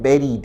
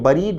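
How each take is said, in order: First: The first syllable sounds like 'bear'. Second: The first syllable sounds like 'bur'. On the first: The speaker calls it right. "बेरीड है" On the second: The speaker calls it wrong. "यह बरीड नहीं है"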